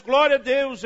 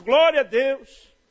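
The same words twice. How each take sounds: First: Loud exclamation of praise; excited praise. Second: Loud, slow, stretched praise; drawn-out praise. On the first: Preacher shouting praise at the cash. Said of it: "Eu começo". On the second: Preacher staring at the cash, slow loud praise. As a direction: stretch the praise out, louder and slower. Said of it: "eu olho aquele maço". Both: Retold or imitated.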